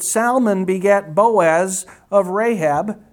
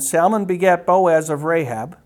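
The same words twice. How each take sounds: First: There is a pause inside the sentence. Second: The sentence runs on without a pause. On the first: The speaker calls it wrong. "I shouldn't have paused there" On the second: The speaker calls it right. "I'll read it again"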